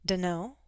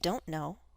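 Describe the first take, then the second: First: The words are blended into one short reduced form. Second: Both words are said fully and separately.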